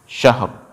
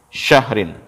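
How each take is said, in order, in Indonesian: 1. Kata ini berakhir pada bunyi r polos. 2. Kata ini berakhir dengan bunyi -in yang penuh.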